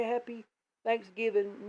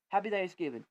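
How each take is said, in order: First: Lifted, sing-song holiday greeting, a touch higher; sweet friendly greeting. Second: Said in the usual way. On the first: Retold or imitated. Kind neighbour greeting him online, sweet sing-song lift. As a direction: chirp it like a kind neighbour wishing well. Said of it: "They were being nice to you, trying to say". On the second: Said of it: "or they just say".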